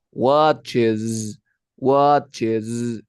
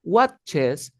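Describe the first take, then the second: First: "watches" ending in a long buzzed z; emphatic "watches", last letter hummed as zzz; final Z sound. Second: "watches" ending in a hissed, voiceless s; higher-pitched mistaken "watches" with plain s; wrong final S. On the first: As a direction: draw out a voiced z closing "watches". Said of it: "sonido de Z". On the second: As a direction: say "watches" with a crisp s, no buzz. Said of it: "No se va a pronunciar". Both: Shown as a demonstration.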